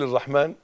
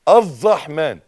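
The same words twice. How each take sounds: First: The r sound is single. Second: The r sound is doubled. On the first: The speaker calls it wrong. "اللي يقول الرحمن من غير يبقى كده غلط لحن" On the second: The speaker calls it right. "دي شدة"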